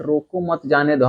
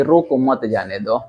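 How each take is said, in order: First: Softer "रोको मत, जाने दो", grouping "मत" with "रोको"; phrasing of रोको मत जाने दो. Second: "रोको, मत जाने दो", grouping "मत" with "जाने"; phrasing of रोको मत जाने दो. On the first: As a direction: let "जाने दो" follow as permission. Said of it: "sentence एक ही है but तरीका". ("रोको मत" साथ, फिर "जाने दो") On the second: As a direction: make "मत जाने दो" the order. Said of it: "हमको लगा आप बोल रहे हैं". ("रोको", फिर "मत जाने दो" साथ) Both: Shown as a demonstration.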